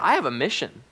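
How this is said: It is declared emphatically, like an exclamation.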